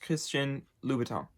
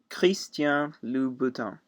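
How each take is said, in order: First: The name is said at a fast pace. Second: The name is said at a slower pace.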